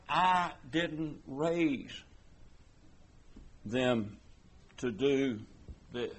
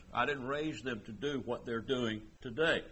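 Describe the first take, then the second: First: Every word spaced out, slowed right down; slow emphatic. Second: Said in the usual way. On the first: Shown as a demonstration. Preacher voicing a parent, slow word-by-word emphasis. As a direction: lay each word down with a pause between. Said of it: "drawn out with pauses". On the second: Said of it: "same words said again".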